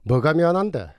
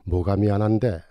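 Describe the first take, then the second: First: It is spoken in a Busan dialect accent. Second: It is spoken in standard Seoul Korean. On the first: "경상도 사투리, 특히 부산말로 바꾸어 놓으면" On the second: "이 대화를 표준어로 해서"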